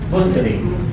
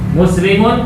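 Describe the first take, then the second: First: The word stops at the final m sound. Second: The word ends with a full -un ending.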